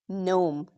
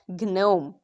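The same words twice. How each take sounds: First: The word starts with an N sound, no G. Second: The word starts with a hard G sound. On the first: The speaker calls it right. "Silent G often comes before N" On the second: The speaker calls it wrong. "not gnome"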